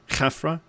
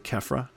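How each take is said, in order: First: It begins with a harsh, throaty kh sound. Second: It begins with a plain k sound. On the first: This is the original pronunciation. "I think they were originally pronouncing it Khafra" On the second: This is the modern English pronunciation. "we don't really do a lot of kh. And so we just say Khafra"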